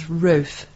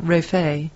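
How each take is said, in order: First: Rofe said to rhyme with loaf; Rofe as one syllable. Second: Rofe said as roe-FAY; Rofe with two syllables. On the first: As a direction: say Rofe with a silent final E. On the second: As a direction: end Rofe on a French-style "ay". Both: Shown as a demonstration. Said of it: "not Rofe".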